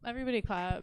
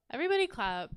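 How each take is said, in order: First: Said in the usual way. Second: Loud call to clap; rally the crowd loudly; calling for applause. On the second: Real, not acted.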